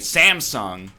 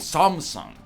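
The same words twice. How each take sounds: First: The A vowels are not said as ah. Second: The A vowels are said as ah. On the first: This is the local American way of saying it. The speaker calls it wrong. "we say Samsung. That's not correct, technically" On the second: This is how the name is said in Korea. The speaker calls it right. "But it's actually Samsung"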